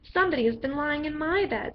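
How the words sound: It is said in a middle-sized voice.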